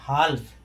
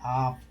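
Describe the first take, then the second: First: The L sound is pronounced in the word. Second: The L sound is left silent in the word. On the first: The speaker calls it wrong. "अगर एल का उच्चारण करें तो क्या होगा? ... लेकिन ये अशुद्ध है अंग्रेजी में" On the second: The speaker calls it right. "कैसे पढ़ेंगे?"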